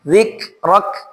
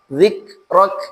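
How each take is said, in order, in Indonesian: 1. K di akhir ditekan kuat dan pendek. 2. K di akhir ditekan kuat dan pendek.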